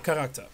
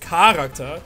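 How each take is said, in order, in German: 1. Die Betonung liegt auf einer späteren Silbe. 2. Die Betonung liegt auf der ersten Silbe.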